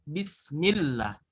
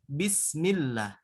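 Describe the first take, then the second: No difference in how they are said.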